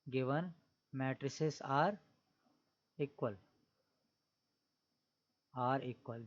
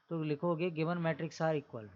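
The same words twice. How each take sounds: First: Given matrices are equal spoken word by word with long pauses; slow dictation. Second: Said in the usual way. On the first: Shown as a demonstration. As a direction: dictate it slowly so students can write. (धीरे-धीरे बोलकर लिखवाना)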